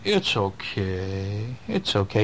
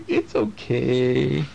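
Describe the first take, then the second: First: Low, very slow soothing; comforting friend. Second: Put-on very slow, gentle child's reassurance; drawn-out soothing it's okay; child comforting. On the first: Acted. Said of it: "the little friend is saying". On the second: Dad imitating his kids comforting him, slow and gentle. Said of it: "you guys will come over and go".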